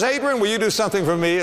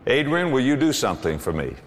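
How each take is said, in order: First: Higher, quicker, wheedling ask; lightly voiced wife asking a favour; sweet coaxing wife. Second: Said in the usual way. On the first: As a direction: coax him like a loving wife. Wife asks sweetly, second version.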